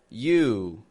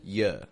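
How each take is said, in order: First: The vowel is a full, long oo sound. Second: The vowel is reduced to a short uh. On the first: "we're reducing the vowel that's in that word, the oo" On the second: "we're making it into a schwa"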